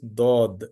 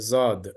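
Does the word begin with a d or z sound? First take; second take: d; z. First: The word begins with a d sound. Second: The word begins with a z sound. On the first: The speaker calls it right. "Dod is the correct pronunciation" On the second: The speaker calls it wrong. "Zad is not correct"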